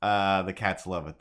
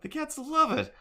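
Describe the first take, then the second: First: Said in the usual way. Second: Way up high, squeaking it; high-pitched echo; high squeaky cat voice. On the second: Shown as a demonstration. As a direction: chirp it like a delighted cat.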